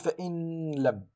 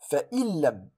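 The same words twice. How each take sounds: First: The n is pronounced clearly before the l. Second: The n merges fully into a doubled l. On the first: The speaker calls it wrong. "ولا أقول فإن لم" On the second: The speaker calls it right. "أقول فإن لم"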